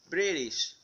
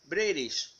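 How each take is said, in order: No difference in how they are said.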